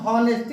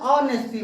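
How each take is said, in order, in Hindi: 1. यह शब्द h ध्वनि से शुरू होता है। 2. यह शब्द स्वर ध्वनि से शुरू होता है। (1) "अब कह दियो हिया आवता है यच, लेकिन देखा हम हॉनेस्टी नहीं पढ़े" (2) "ऑनेस्टी पढ़ी थे, ऑनेस्टी तो आ आवता है"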